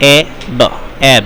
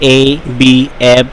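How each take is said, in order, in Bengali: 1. প্রতিটি বর্ণ তার ধ্বনি দিয়ে উচ্চারণ করা হয়। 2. প্রতিটি বর্ণ তার বর্ণমালার নাম দিয়ে উচ্চারণ করা হয়। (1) "অবশ্যই বাচ্চাদেরকে ফোনিক্স দিয়ে বানান পড়াতে হবে" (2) "এভাবে কখনোই পড়াবো না"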